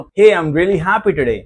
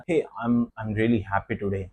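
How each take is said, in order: First: Bright, louder and slow, falling hey; cheerful and lively; happy intonation. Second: Low, soft and slow, no joy in it; flat joyless read; flat unhappy tone. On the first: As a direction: sound truly happy about it. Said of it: "तो मेरी intonation सही है". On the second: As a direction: say it like you don't mean it. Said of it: "मेरी intonation गलत थी". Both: Shown as a demonstration.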